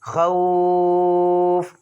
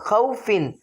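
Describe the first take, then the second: First: The first vowel is drawn out and the ending dropped. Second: The first vowel is short and the ending is kept. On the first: The reader stops on this word. "खौफिन नहीं बल्कि खौफ" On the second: The reader carries on without stopping. "हुरूफ लीन को हमने नहीं खींचना"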